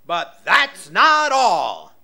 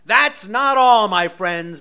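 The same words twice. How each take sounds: First: Slow, loud pitchman pitch; infomercial. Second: Infomercial. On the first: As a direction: sell it like a TV ad. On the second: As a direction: hype it like a TV salesman. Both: Pretend. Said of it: "I sound like an infomercial now".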